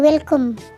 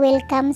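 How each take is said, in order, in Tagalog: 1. Binigkas ito sa accent na parang British. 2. Binigkas ito sa Filipino English accent. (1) "Dito kay welcome" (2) "Welcome sa atin in English"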